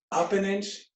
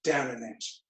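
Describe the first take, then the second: First: Voice lifts on up. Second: Lower, softer to act out going down an inch; voice drops on down. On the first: Instructor cueing class upward, voice lifting. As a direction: pitch rises to act out going up an inch. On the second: Instructor cueing class downward, voice dropping. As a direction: let the voice sink with the leg. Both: Shown as a demonstration.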